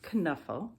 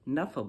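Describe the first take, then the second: First: The K at the start is pronounced. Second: The K at the start is silent. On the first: "you can say this word with the K" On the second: "or as a silent K"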